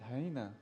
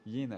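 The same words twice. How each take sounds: First: The word begins with an H sound. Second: The word begins with a Y sound. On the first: This is how a native English speaker says it. "that's the way you say it" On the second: This is how a French speaker says it. "the way I say it"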